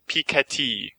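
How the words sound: The name is said with a French pronunciation. The speaker calls it right. "it was supposed to be pronounced Thomas Piketty"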